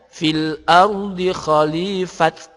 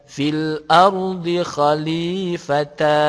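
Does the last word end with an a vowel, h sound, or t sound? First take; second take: t sound; a vowel. First: The last word ends with a t sound. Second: The last word ends with a ta syllable. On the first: "juga bukan dibaca fil ardi khalifat" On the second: "jika berhenti bukan dibaca fil ardi khalifata"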